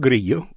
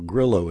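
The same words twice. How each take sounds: First: The name is pronounced the Spanish way. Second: The name is pronounced the American English way.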